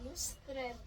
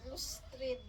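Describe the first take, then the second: First: It is blended into one word, lustred. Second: The same.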